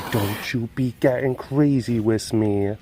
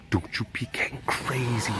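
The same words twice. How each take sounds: First: Said in the usual way. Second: Soft whisper to the cat; whispered warning to a jumpy cat. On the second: Shown as a demonstration. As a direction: hush it, scolding gently under the breath. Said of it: "repeated plainly".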